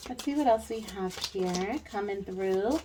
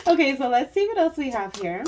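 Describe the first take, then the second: First: Said in the usual way. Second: Laughing through the words, higher and louder; real laughter spilling into the line. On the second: Real, not acted. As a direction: still giggling as she moves on. Laughing while moving to next card.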